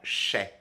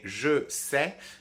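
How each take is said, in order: First: The words merge into one short reduced syllable. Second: Both words are said fully and separately. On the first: This is the casual spoken form. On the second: This is the careful form.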